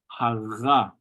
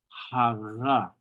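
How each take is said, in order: First: The middle consonant lets the air flow through. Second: The same.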